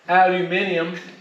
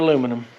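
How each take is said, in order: First: It is said the British way, five syllables. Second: It is said the American way, four syllables.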